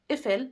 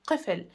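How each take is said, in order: First: It starts with a glottal catch, no q. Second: It starts with a deep q sound. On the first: This is the dialect form. "like in Egyptian dialect, also in the Syrian and Levant dialect" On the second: This is the standard form. "in standard Arabic it is Qifl"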